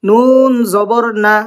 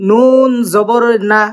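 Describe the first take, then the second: Both takes have the same delivery.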